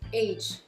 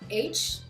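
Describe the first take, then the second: First: It ends in a voiced sound, like a Z. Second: It ends in a voiceless sound, like the letter H. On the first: It means a person's age. The speaker calls it right. "dites age ... like Z sound" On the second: It would be heard as the letter H. The speaker calls it wrong. "Ne dites pas age"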